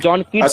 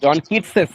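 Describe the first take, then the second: First: The name ends without any added syllable. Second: The name ends with an added 'es' syllable. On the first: The speaker calls it wrong. "বললে হবে না" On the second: The speaker calls it right. "জন কিটসেস উচ্চারণ করতে হবে"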